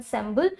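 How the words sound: The word is said with an English pronunciation. "English में you can pronounce it as ensemble"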